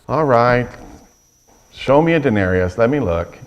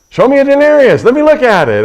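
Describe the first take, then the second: First: It is said in a flat, matter-of-fact tone. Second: It is said in a lively, upbeat tone.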